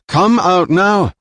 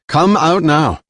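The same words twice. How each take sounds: First: High, loud, slow come out now, each word weighted; slow menacing command. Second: Loud, high order, falling hard on come; firm command. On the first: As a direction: spell out the order slowly as a threat. Jilan's slow repeated demand. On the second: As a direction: order them out, final warning. Jilan repeats her order. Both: Acted.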